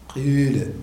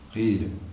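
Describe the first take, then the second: First: The i vowel is tinged with lip rounding. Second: The vowel is a pure, unrounded i sound. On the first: "بالإشمام" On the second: "لك فيه الكسر الخالص"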